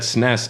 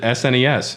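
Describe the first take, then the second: First: It is said as a single one-syllable word. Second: It is spelled out as four separate letters. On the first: "people said S N E S as a word" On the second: "I've always pronounced it"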